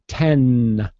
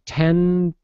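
First: The final N is clearly released. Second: The final N is held without release. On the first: The word stands alone. "and then I release it, N, 10" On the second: Another word follows directly. "I do not release it. 10, and I go right into the B"

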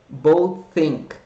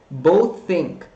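Both takes have the same delivery.

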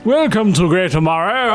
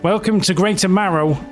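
First: It is read in the mayor's character voice. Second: It is read in a plain, normal voice.

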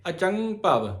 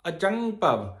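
No difference in how they are said.

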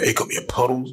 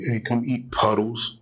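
First: It is said in a harsh, aggressive tone. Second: It is said in a soft, gentle tone.

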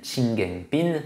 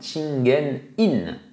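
First: The last syllable is said as 'pin'. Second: The last syllable is said as 'in'. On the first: This is how the name is actually known in Japan. "c'est comme ça qu'on le connaît au Japon" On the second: This is the expected Japanese reading of the character. "normalement, en japonais, on devrait dire son nom Chingen In"

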